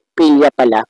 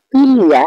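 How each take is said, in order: First: Said in the usual way. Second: Amused self-check. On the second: Real, not acted.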